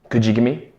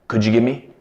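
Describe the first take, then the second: The two takes are said the same way.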